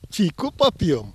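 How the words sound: The first word is said with an 'i' vowel. This is how people in a third village spoke, with some flair. "с некоторым шиком говорили через «и»"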